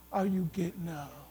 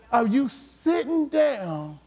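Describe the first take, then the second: First: Much lower and softer; hushed question. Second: Said in the usual way. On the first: Acted. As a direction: drop to a low, quiet challenge. Contrasts sitting down with getting up.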